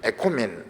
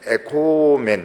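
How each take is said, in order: First: The middle vowel is kept short. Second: The middle vowel is drawn out long. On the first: It states that we have peace. "짧으면 에코멘 이러면 있고" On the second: It urges: let us have peace. "이렇게 코가 좀 길게 끌어주면은 권면형이 되고"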